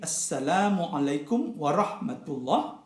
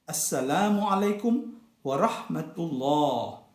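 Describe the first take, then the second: First: The vowel at the end is cut short. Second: The vowel at the end is held long. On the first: The speaker calls it wrong. "The prayer ends not with" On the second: The speaker calls it right. "with two harakat at the end"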